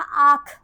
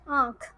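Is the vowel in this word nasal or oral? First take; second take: oral; nasal. First: The vowel is said without nasalization. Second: The vowel is said with nasalization. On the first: It has no meaning. The speaker calls it wrong. "अगर यहाँ पे चंद्र बिंदु नहीं लगा होता तो शब्द बनता" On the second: It means eye. The speaker calls it right. "जब हमने इसके ऊपर चंद्र बिंदु लगाया"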